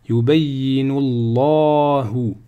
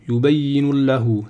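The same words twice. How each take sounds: First: The vowel in Allah is long. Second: The vowel in Allah is short. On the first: The speaker calls it right. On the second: The speaker calls it wrong.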